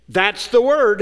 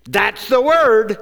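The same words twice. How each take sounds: First: Said in the usual way. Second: Slow, weighty stress on word; emphatic repeat. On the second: Shown as a demonstration. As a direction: lean hard on word.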